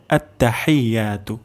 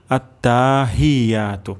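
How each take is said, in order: First: আত্তাহিয়াতু with short tta, then "hai-ya"; correct pronunciation. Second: আত্তাহিয়াতু with long taa and "hee"; mispronounced example. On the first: Teacher gives learners the correct pronunciation, careful. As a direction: recite at-ta-hai-yaa-tu carefully. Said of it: "সহিহ উচ্চারণটি হবে". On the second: Teacher demonstrates what must not be said, mispronounced. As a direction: drag it as at-taa-hee-yaatu. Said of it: "তাহলে ভুল হবে". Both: Shown as a demonstration.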